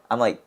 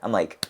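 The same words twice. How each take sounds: The two takes are said the same way.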